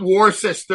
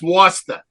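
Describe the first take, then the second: First: It is said without a Boston accent. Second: It is said with a Boston accent.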